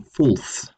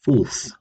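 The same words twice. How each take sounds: First: Fulth with a rounded u as in full; Old English fulth. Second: Fulth repeated clearly, falling tune; Old English fulth. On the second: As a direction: repeat fulth slowly with a rounded u. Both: Shown as a demonstration. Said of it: "resulted in the form becoming fulth".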